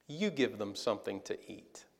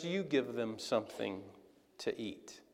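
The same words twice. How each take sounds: First: Quiet calm command. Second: Much softer and lower, last words nearly whispered; hushed command. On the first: Jesus softly tells disciples to feed the crowd, quiet and calm. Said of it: "Jesus responded with this". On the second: Jesus quietly tells his disciples to feed them, hushed. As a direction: drop almost to a whisper. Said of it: "And Jesus says". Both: Retold or imitated.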